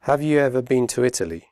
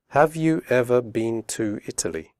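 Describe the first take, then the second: First: The question is spoken quickly with reduced words. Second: The question is spoken slowly and carefully. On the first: "then quickly" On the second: "first slowly"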